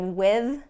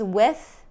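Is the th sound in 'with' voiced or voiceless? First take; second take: voiced; voiceless. First: The th sound is voiced, with buzzing. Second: The th sound is voiceless, without buzzing. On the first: "instead of with" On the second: "use with as a voiceless T H sound"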